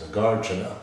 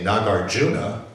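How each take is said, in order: First: The stress is on the second syllable. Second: The stress is on the third syllable. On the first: The speaker calls it right. "It ends in two short syllables" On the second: The speaker calls it wrong. "that sounds terrible to me"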